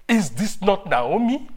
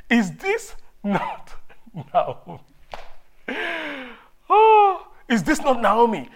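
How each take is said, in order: First: Surprised greeting. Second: Loud, high burst of surprise on "Oh"; a woman recognizing an old neighbor, shocked and loud; astonished cry. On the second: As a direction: call out in amazement at a returning friend. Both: Acted. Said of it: "the woman asked".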